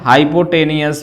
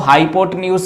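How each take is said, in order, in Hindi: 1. यह शब्द छोटी 'nee-us' ध्वनि से खत्म होता है। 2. यह शब्द लंबी 'nyoos' ध्वनि से खत्म होता है। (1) "हाइपोटेनियस भी बोल सकते हो" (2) "कुछ लोग इसको हाइपोटेन्यूस भी प्रोनाउंसिएशन करते हैं"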